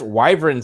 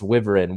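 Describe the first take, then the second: First: The first vowel is long, as in 'wife'. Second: The first vowel is short, as in 'wind'. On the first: The speaker calls it wrong. "wyvern sounds stupid. ... Wyvern sounds like a mixture of whining and wife" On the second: The speaker calls it right. "wyvern sounds much more like the wind"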